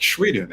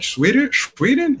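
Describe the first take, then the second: First: Put-on Swedish accent. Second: High rising disbelief, pitch jumping up; surprised repeat. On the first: Narrator imitating Martin confirming Sweden in a light Swedish accent. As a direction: mimic the Swedish guy's "Shweden", calm and sure. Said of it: "he had, like, a crazy accent". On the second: Retold or imitated. Narrator echoing Martin's Sweden in amazed disbelief. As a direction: echo it back like you can't believe it.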